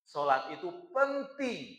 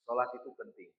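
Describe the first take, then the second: First: It is said with strong, forceful emphasis. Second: It is said in an ordinary, unstressed way. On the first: The speaker calls it right. "tapi kita harus kasih penekanan" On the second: The speaker calls it wrong. "Itu biasa"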